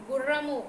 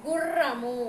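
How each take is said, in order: First: Said in the usual way. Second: గుర్రము with a long rolled rr; doubled r. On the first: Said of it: "అదే రాకు". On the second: Shown as a demonstration. Teacher adds ra-vattu for pupils, long rr in గుర్రము. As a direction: hold the trill in గుర్రము. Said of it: "రావత్తు చేరుస్తున్నాను".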